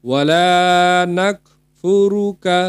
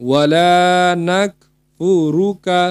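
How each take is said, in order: No difference in how they are said.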